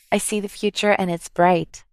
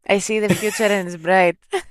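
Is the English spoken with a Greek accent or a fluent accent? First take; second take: fluent; Greek. First: English spoken with a fluent, non-Greek accent. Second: English spoken with a strong Greek accent. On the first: "Αυτή είναι η προφορά που έχεις στα αγγλικά" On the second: "1000 φορές ελλήνω αγγλικά"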